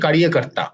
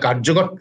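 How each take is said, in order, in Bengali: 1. প্রথম অংশে তিনটি দল, kariye। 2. প্রথম অংশে দুটি দল, karjo। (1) "তাদের উচ্চারণে কারিয়ে কর্তা" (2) "যেটাকে বাংলায় কার্যকর্তা"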